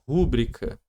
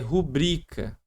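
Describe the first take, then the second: First: The stress is on the first syllable. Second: The stress is on the second syllable. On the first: The speaker calls it wrong. "não é rúbrica ... Se fosse rúbrica ... proparoxítona" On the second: The speaker calls it right. "é rubrica ... ela vai ser uma paroxítona"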